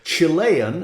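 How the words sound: It is said with an American pronunciation. "as Americans say"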